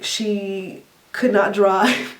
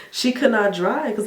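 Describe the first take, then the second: First: "could not drive" stretched very slow; drawn-out emphasis. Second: Said in the usual way. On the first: Real, not acted. Teasing mom about driving.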